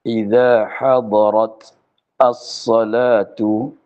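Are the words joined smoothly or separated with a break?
separated. The words are separated with a break between them.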